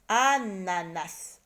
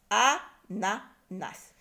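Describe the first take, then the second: First: ANANAS slowly, with a long first A; stretched first syllable. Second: ANANAS as a, na, nas with gaps; syllable by syllable. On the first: Teacher names the picture, ANANAS slow and drawn out. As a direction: linger on the opening A of ANANAS. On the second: Teacher cuts up the word, ANANAS in separate syllables. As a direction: pause after each syllable of ANANAS. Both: Shown as a demonstration. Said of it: "on les a découpés par syllabes".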